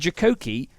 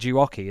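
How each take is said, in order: First: The middle k sound is clearly pronounced. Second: The middle k sound is left out. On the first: The speaker calls it right. "there's two C's in it" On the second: The speaker calls it wrong. "Everyone's saying Juoki"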